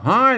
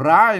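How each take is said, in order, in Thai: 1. คำนี้ขึ้นต้นด้วยเสียง h 2. คำนี้ขึ้นต้นด้วยเสียง r (1) "ออกเสียงละนาก็ห้าย" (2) "ถ้าออกเสียงไทยก็ร้าย"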